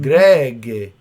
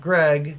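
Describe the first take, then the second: First: The name ends with an added vowel sound. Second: The name ends on the final consonant. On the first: This is how the family says the name. "it's gotta end in a vowel" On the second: This is the usual way to say the name. "Not Greg"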